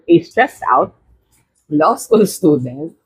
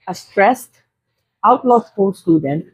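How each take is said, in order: First: There is a break right after 'out'. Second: There is a break right after 'stressed'. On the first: The law student is stressed out. The speaker calls it right. "stressed out, hindi outlaw" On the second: The student is a stressed outlaw. The speaker calls it wrong. "mali, stressed out, hindi outlaw, maling puto"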